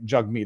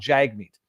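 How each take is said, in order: First: The first vowel sounds like 'jug'. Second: The first vowel sounds like 'jag'. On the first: The speaker calls it right. "Jugmeat is how you pronounce it" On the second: The speaker calls it wrong. "It's not Jagmeat"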